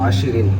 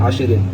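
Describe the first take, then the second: No difference in how they are said.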